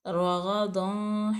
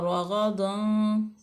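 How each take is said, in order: No difference in how they are said.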